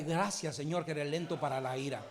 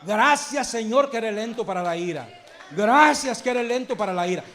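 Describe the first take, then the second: First: Softer, lower prayer said quickly, as the model for the congregation; quiet prayer. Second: Louder, ringing thanks ending in a shout; loud praise. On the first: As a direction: murmur the thanks softly, almost to yourself. (oración callada y rápida, más baja y suave) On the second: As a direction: proclaim the thanks out loud to the whole church. (acción de gracias proclamada en voz alta, terminando en grito) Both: Shown as a demonstration. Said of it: "Dígale".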